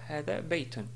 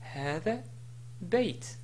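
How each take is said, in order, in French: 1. Le deuxième mot se termine par un son 'on'. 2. Le deuxième mot se termine sans son 'on'. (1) "et non pas" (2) "si je voulais m'arrêter sur Bayton, je dis"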